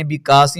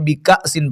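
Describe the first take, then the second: First: The 'a' is a plain long vowel. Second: The 'a' is cut by a glottal stop. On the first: The speaker calls it wrong. "नहीं पढ़ना" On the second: The speaker calls it right. "झटका देकर पढ़ेंगे हमजा साकिना को"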